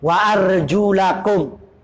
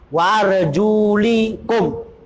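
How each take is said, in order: First: The vowel after the L is 'a'. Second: The vowel after the L is 'i'. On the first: The feet are to be washed. "Wa arjulakum itu dengan uh, dibaca fathah" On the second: The feet are only to be wiped. "Dibaca kasroh di sini lamnya"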